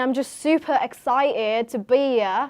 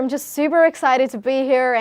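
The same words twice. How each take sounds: First: It is spoken in a British accent. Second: It is spoken in an American accent. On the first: "so I can start with the British one"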